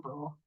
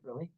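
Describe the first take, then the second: First: The name ends without an 'ee' sound. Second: The name ends with an added 'ee' sound. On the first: The speaker calls it right. "but it's Lower Brule" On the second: The speaker calls it wrong. "that's why I said Bruley"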